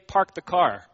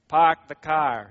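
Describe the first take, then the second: First: It is said in a plain, non-New England accent. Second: It is said in a New England accent.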